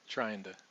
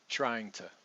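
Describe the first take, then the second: First: The word 'to' begins with a soft D sound. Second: The word 'to' begins with a T sound. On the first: "one other way that we might do this um, is to use a D" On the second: "we're going to use the schwa here"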